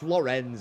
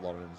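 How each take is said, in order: First: The name ends with a sharp 'ents' sound. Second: The name is said like English 'Lawrence'. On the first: The speaker calls it right. "It's Lorenz, isn't it?" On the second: The speaker calls it wrong. "It's not Lawrence"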